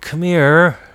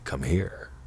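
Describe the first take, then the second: First: It is said in a pleading, begging tone. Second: It is said in a flirty, teasing tone. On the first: "We can beg" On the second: "in a flirty way"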